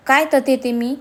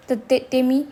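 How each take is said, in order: First: Mocking stammer. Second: Halting, caught off guard; flustered stammer. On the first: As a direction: throw the stammer back at them. Mocks her stammer back at her. (तिच्या अडखळण्याची नक्कल करत, चिडून) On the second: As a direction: stumble over the words, lost for an answer. (अडखळत, गोंधळून) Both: A narrator's reading.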